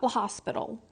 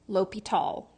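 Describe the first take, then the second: First: It is said like 'la hospital', with an s. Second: It is said 'lopital', with no s sound. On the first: The speaker calls it wrong. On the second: The speaker calls it right.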